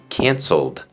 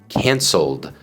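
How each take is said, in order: The two takes are said the same way.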